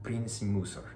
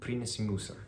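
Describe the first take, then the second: No difference in how they are said.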